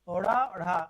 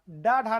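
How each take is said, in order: First: The consonants are quick flaps of the tongue. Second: The consonants are full stops of the tongue. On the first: The speaker calls it right. "ये ओढ़ा ओढ़ा। याद रखिएगा, उच्चारण इनका होगा ओढ़ा ओढ़ा" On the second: The speaker calls it wrong. "डा ढा नहीं है। कुछ लोग इसको डा और ढा बोलते हैं"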